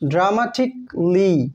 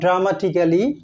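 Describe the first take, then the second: First: The a in the ending is silent. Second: The a in the ending is pronounced. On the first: The speaker calls it right. "Silent থাকে" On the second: The speaker calls it wrong. "Not"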